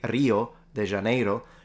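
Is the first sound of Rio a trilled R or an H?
trilled R. Rio begins with a trilled, rolled R sound. "she didn't say Rio de Janeiro"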